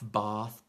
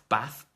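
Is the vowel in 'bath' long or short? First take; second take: long; short. First: The vowel is long and soft, Southern English style. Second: The vowel is short and flat, Midlands style. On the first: "the Southern English accent um, tends to have a, a longer and softer vowels" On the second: "where I'm from, uh, we say"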